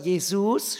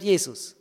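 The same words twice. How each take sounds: First: "Jesus" stressed on the final "-sus"; wrong-syllable stress. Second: Said in the usual way. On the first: Shown as a demonstration. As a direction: push the second syllable of "Jesus". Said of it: "die unbetonte Silbe betonen". („Jesus“ auf der zweiten Silbe betont) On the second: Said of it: "statt Jesus".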